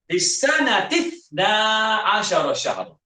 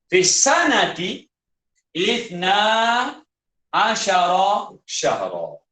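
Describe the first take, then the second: First: The alif is skipped, linking ta to tha. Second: The alif of ithna is pronounced separately.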